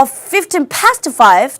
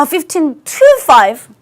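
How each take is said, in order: First: "past" punched loud in a very slow "fifteen past five"; contrast stress. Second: "to" set loud in a very slow "fifteen to five"; contrast stress. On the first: Teacher contrasting "past" with "to". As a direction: hit "past" hard. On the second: Teacher contrasting "to" with "past". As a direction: hit "to" hard. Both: Shown as a demonstration. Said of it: "삼십 분 차이".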